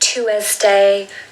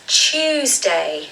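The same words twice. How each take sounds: First: The word begins with a t sound. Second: The word begins with a ch sound. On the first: The speaker calls it wrong. "I hear people saying Tuesday, Tuesday, but no, it's a ch sound" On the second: The speaker calls it right. "it is not a T sound. It is more of a C H sound"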